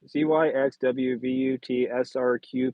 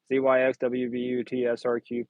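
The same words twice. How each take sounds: First: The letters are recited slowly. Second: The letters are recited quickly. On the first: "It's actually more pressure trying to say it slowly" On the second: "just to blurt it out"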